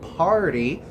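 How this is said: American accent, with a soft t and strong r. "festa no inglês americano"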